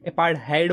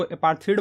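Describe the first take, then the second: First: अपार्थहाइड ending in "hide"; अपार्थहाइड spoken as "uh-paart-hide"; apart-hide pronunciation. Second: अपार्थीड rhymes with "need", with no "hide" sound; अपार्थीड spoken as "uh-paar-theed"; apar-theed pronunciation. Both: Shown as a demonstration. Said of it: "अपार्थीड बोलो या फिर अपार्थहाइड बोलो".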